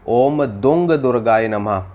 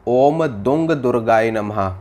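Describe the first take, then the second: No difference in how they are said.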